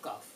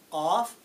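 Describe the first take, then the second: First: The first sound is flat, like kaf. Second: The first sound is round and deep. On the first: The speaker calls it wrong. "they say cough, cough. Wrong" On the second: The speaker calls it right. "This is cough, cough"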